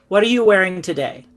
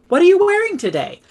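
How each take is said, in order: First: The pitch stays flat throughout the question. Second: The pitch moves up and down through the question. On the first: The speaker calls it wrong. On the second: The speaker calls it right. "The inflection helps us to communicate"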